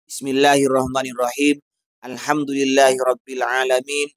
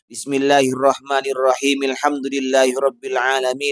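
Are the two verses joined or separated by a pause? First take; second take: paused; joined. First: There is a pause between the two verses. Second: The two verses run together without a pause.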